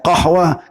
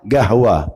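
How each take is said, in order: First: The word begins with a deep q sound. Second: The word begins with a hard g sound. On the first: This is the standard Arabic form. "Bahasa fushanya qahwa" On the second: This is the Yemeni dialect form. "pakai gap dia"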